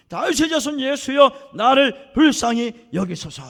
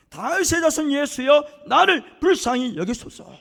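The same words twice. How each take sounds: First: Louder, slow, stretched plea, 다윗의 and 나를 drawn out; crying out louder. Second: Loud, slow, drawn-out plea; crying out. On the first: Beggar shouting past the hushing crowd, louder pleading cry. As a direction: shout it again, even bigger, ignoring the crowd. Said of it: "크게 질러요". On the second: Blind beggar crying out to Jesus, loud pleading call. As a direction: call out with all your strength, begging. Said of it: "있는 힘을 다해서 소리 질러요". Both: Retold or imitated.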